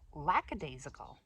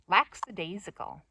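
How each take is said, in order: First: The word has no extra s sound. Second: The word has an extra s sound. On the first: The speaker calls it right. "but it's lackadaisical" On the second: The speaker calls it wrong. "That's the way I've been saying it. ... I thought there was an S there"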